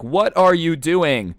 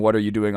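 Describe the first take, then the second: First: High, drawn-out indignant question; slow, exasperated retold yell; mock annoyed yell. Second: Said in the usual way. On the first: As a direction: imitate an annoyed man yelling. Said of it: "the guy who's yelling". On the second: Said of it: "he looks at the guy who's yelling".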